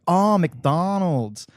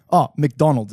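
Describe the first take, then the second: First: Drawn-out American "Oh, McDonald's"; imitated American accent. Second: Said in the usual way. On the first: Australian mimics American housemates finally understanding Macca's, in a drawn-out American accent. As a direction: mimic American girls finally catching on, very slowly. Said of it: "They're like, "Oh, McDonald's". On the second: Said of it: "I'm like, "Oh, McDonald's".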